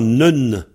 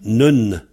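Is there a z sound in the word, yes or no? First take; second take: no; no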